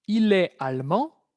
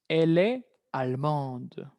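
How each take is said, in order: First: "allemand" ending on a nasal vowel, no D sounded; masculine French pronunciation. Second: "allemande" slowed, with the final D sounded; feminine French pronunciation. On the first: Teacher contrasts masculine with feminine, "allemand" with silent D. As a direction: leave the final D of "allemand" silent. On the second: Teacher warns of the feminine change, "allemande" with audible D. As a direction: release a clear D at the end of "allemande". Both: Shown as a demonstration. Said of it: "Va a haber un cambio de pronunciación".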